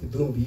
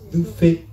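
First: The middle consonant sounds like b. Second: The middle consonant sounds like f. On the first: The speaker calls it wrong. "Thubi is not Thubi" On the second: The speaker calls it right. "So that B is pronounced as F"

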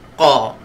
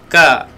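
First: The consonant is thick, from the tongue's back. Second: The consonant is a plain, light k. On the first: The speaker calls it right. "Qa tebalkan pangkal lidah kita" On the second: The speaker calls it wrong. "Jangan ka"

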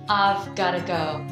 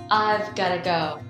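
The two takes are said the same way.

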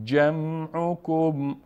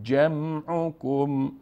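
No difference in how they are said.

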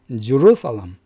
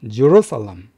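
No difference in how they are said.

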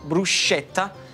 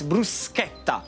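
First: The 'sch' is pronounced as a soft 'sh'. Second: The 'sch' is pronounced as a hard 'sk'. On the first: The speaker calls it wrong. "It's not bruschetta" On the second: The speaker calls it right. "but it's bruschetta, the sch"

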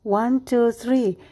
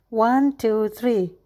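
Both takes have the same delivery.

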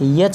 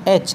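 First: The letter name starts with a y sound. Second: The letter name starts with a plain vowel. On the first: The speaker calls it wrong. "यच नहीं" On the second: The speaker calls it right. "बल्कि एच"

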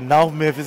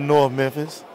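First: It is said with a local Memphis pronunciation. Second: It is said with a standard general pronunciation. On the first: "Teach me some more Memphis speak then" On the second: "instead of"

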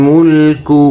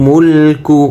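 No difference in how they are said.

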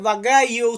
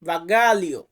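First: The middle is said without an 'l' sound. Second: The middle is said with an 'l' sound. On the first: The speaker calls it wrong. "অনেকে বাগাইও উচ্চারণ করেন" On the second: The speaker calls it right. "সঠিকভাবে উচ্চারণ করতে পারি বাগালিও"

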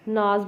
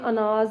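First: The initial vowel is dropped from the word. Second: The word begins with an initial vowel. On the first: "ਨਾਜ਼ ਬੋਲਦੇ ਹਾਂ" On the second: "ਅਨਾਜ ਨੂੰ"

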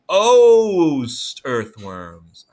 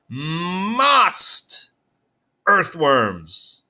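First: The first word has a long vowel, like 'most'. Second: The first word has a short vowel, like 'must'. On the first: The speaker calls it right. "let's make that O say O this time" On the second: The speaker calls it wrong. "O says O or ah... Let's try it"

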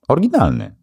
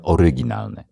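First: The word is said in a relaxed, reduced way. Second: The word is said with every syllable articulated. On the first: This is the everyday way of saying it. "A w Netflixie normalnie jak mówisz?" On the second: The speaker is consciously focusing on pronunciation. "jak mam świadomość i faktycznie chcę się skupić"

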